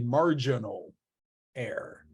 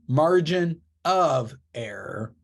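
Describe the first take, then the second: First: The 'of' blends into 'margin' as one word. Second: The 'of' is said as a separate word. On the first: The speaker calls it wrong. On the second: The speaker calls it right.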